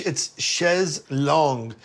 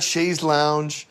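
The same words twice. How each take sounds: First: "chaise longue" said slowly as "shez long"; slow, careful "chaise longue" as "shez long"; French pronunciation. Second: "chaise lounge" as English "shayz lownj"; anglicised, drawn-out "chaise lounge"; mistaken pronunciation. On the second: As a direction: slowly say "chaise lounge" like the word lounge. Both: Shown as a demonstration. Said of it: "not chaise lounge".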